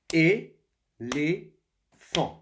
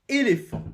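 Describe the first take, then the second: First: "Éléphant" slowly and loudly as é, lé, phant; split into syllables. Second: Said in the usual way. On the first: Shown as a demonstration. Teacher showing pupils three syllables, "Éléphant" slowly split apart. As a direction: beat out "Éléphant" in three loud, separate syllables. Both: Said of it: "Trois syllabes".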